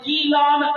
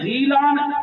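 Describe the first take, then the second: First: The name begins with a k sound. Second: The name begins with a throaty gh sound. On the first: Many people say it this way. "बहुत से लोग काफ पढ़ते हैं" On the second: Some people say it this way. "गाफ की जगह गैन पढ़ते हैं"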